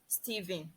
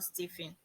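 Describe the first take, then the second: First: The middle consonant is a voiced v sound. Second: The middle consonant is a voiceless f sound. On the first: The speaker calls it right. "the last example there is Stephen" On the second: The speaker calls it wrong. "and not Stephen"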